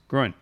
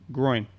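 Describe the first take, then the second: First: The word is said quickly. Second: The word is said slowly. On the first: "Saying it faster" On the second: "can you say it slowly?"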